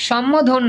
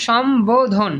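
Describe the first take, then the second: First: সম্বোধন said as shom-mo-dhon; wrong pronunciation. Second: সম্বোধন with a clear b; correct pronunciation. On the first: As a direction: double the m in সম্বোধন, no b. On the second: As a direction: say সম্বোধন as shom-bo-dhon. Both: Shown as a demonstration. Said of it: "সম্বোধন না".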